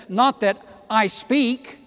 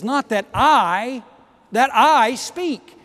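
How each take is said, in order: First: Said in the usual way. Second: "I" repeated and stressed, slow and loud; stress on the doubled I. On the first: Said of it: "but he actually says". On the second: Shown as a demonstration. Preacher showing Paul's doubled "I" to the church. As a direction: lean hard on "that I, that I". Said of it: "He uses the word I twice".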